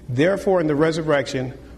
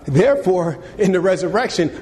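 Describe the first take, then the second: First: It is read in a plain, straight tone. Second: It is read in a mocking, joking tone. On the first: The question is asked seriously. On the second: The question is meant to ridicule.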